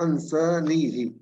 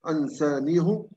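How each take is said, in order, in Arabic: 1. الهاء الأخيرة تحمل حركة الكسرة. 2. الهاء الأخيرة تحمل حركة الضمة.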